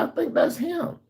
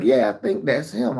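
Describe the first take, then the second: First: High voiced neighbor lady; imitating the mother. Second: Said in the usual way. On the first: Neighbor mother identifying the boy, high mimicking voice. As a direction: mimic her in a high, light voice. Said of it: "She was like". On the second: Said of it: "They were like".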